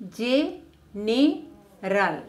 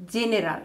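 First: General split slowly into Ge-ne-ral; syllable by syllable. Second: Said in the usual way. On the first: Shown as a demonstration. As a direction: say General in three separate beats, slowly. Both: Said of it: "separate a word into syllables".

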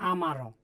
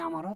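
First: "আমারও" slow, each syllable given its length; correct pronunciation. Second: "আমারও" run together as one quick word; wrong pronunciation. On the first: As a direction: draw out "আমারও" carefully as a model reading. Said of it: "এভাবে উচ্চারণ করতে হবে". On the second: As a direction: say "আমারও" hurried, without stretching each syllable. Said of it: "তাহলে উচ্চারণ আমাদের সঠিক আসবে না". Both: Shown as a demonstration.

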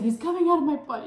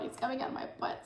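First: High, loud panicked yell. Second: Whispered, fast and pleading; desperate whisper. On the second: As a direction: hiss it urgently. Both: Retold or imitated. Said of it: "I was like".

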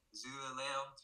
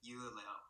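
First: "Zuleleo" with a Z sound at the start; northern Vietnamese Z onset on "Zuleleo"; northern pronunciation. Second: "Yuleleo" with a Y sound at the start; southern Vietnamese Y onset on "Yuleleo"; southern pronunciation. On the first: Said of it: "they would pronounce it like". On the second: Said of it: "we would pronounce it like". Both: Shown as a demonstration.

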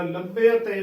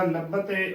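First: ਲੱਭੇ ਅਤੇ opened out as labbe-a-te; correct pronunciation. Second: ਲੱਭਤੇ squeezed into labba-te; mistaken pronunciation. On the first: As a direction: sound both middle vowels of ਲੱਭੇ ਅਤੇ. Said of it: "ਉਚਾਰਨ ਕਰਨਾ ਹੈ". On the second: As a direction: say ਲੱਭਤੇ without the e-a glide. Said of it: "ਉਚਾਰਨ ਨਹੀਂ ਕਰਨਾ". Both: Shown as a demonstration.

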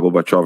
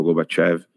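First: Gorbachev ending in an open "-óv"; pronounced Gorbachóv. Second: Gorbachev ending in "-év"; pronounced Gorbachév. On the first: Speaker unsure of the Russian name, Gorbachev said with "-óv". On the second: Speaker offering the other pronunciation, Gorbachev said with "-év". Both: Shown as a demonstration. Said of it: "não sei se a pronúncia é".

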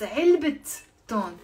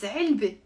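First: "علبة تون" as 3elbit ton, t sounded on علبة; linking t pronounced. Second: "علبة" alone as 3elbe, ending in a vowel; silent ta marbuta. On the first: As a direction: stop briefly after the final t of "علبة", then "تون". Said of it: "how we pronounce it and when". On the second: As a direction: say "علبة" with no t at the end. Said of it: "On its own". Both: Shown as a demonstration.

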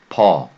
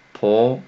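First: ポ with an open Korean eo, louder. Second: Said in the usual way. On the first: Shown as a demonstration. Teacher shows learners a sound Japanese lacks, ポ with open eo. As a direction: say ポ loudly with loose, unrounded lips. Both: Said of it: "発音ないですね".

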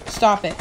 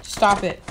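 Both takes have the same delivery.

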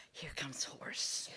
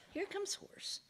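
First: Slow, low, soft whisper; hushed whisper. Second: High, soft, hopeful repeat; hushed excitement. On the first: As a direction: whisper a hopeful sighting to oneself. Man spots hope, whispered. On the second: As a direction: squeak it quietly with rising hope. Man repeats it, hope rising. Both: Acted.

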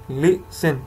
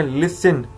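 First: "लिसन" broken into two syllables, लि-सन; "लिसन" with a small break after लि; split into syllables. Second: Said in the usual way. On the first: Shown as a demonstration. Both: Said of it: "टू syllables हैं".

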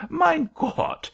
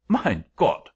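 First: Put-on very high, louder German-accented wail; distressed German-accented angel. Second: Put-on loud exclamation in German accent; startled German-accented angel. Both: A narrator's reading. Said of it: "apparently much softened at my distress".

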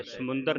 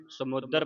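First: ਸਮੁੰਦਰ said samundar, with an n; wrong nasal reading. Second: ਸਮੁੰਦਰ said samudar, without the n; no nasal. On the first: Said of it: "ਸਮੁੰਦਰ ਨਹੀਂ ਪੜਨਾ ਇਹਨੂੰ". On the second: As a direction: drop the nasal in ਸਮੁੰਦਰ: sa-mu-dar. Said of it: "ਟਿੱਪੀ ਤੋਂ ਰਹਿਤ ਹੈ". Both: Shown as a demonstration.

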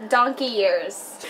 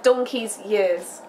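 First: Slow careful "Donkey years" without the s; sounding out "Donkey years" slowly; learner's try. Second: Slow clear "Donkey's years" with the s; model pronunciation. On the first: Learner repeats the phrase slowly after her friend. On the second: British friend slowly models the phrase for a learner. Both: Shown as a demonstration.

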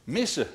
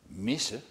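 First: Higher Missen, peaking then falling; explanatory Missen. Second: Soft Missen with rising tune; questioning Missen. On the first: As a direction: say Missen as an obvious answer. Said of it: "antwoordde de mier". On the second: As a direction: ask Missen quietly, unsure of the word. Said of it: "vroeg de eekhoorn". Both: A narrator's reading.

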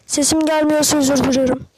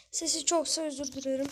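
First: Much louder, testing the mic; sound check shout. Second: Said in the usual way. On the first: Shown as a demonstration. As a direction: blast it loud to check the sound. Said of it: "Arkadaşlar sesimi duyuyor musunuz". (mikrofon testi için çok yüksek sesle)

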